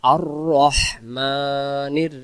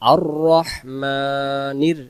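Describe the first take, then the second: The two takes are said the same way.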